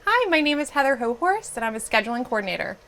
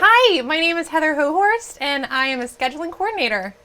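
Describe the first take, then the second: First: It is said in a calm, normal way. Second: It is said in an over-the-top, energetic way.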